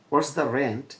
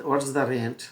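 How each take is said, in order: Both takes have the same delivery.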